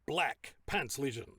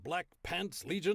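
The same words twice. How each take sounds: First: The word black is stressed too heavily. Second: The word pants is stressed too heavily. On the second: "you're putting a bit too much emphasis on the word pants"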